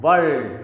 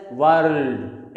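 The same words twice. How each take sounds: First: "world" with the R left out; silent R. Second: "world" with an audible R before the L; R sounded. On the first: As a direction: say "world" as vowel then L, no R. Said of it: "It is pronounced as". ("world" में R silent) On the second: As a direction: roll into the R in "world". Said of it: "It is not pronounced as". ("world" में R का उच्चारण) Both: Shown as a demonstration.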